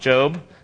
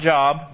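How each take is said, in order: First: It sounds unlike the ordinary word for work. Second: It sounds like the ordinary word for work. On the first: The speaker calls it right. "Job. I know it looks like Job" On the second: The speaker calls it wrong. "not Job"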